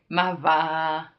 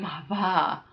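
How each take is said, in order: First: It is said ironically, with disbelief. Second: It is said with genuine shock.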